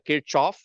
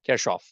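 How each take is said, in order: First: It is pronounced the way it is said in India. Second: It is pronounced with the original German sounds. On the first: "I'm from India. The way we say this name is" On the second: "the actual German pronunciation for this name is"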